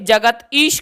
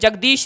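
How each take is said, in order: First: The name is split into two separate words. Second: The name is said as one joined word. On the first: The speaker calls it wrong. "उसे जगत ईश करके पुकारेगा, तो ठीक नहीं लगता" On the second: The speaker calls it right. "जगदीश नाम के व्यक्ति"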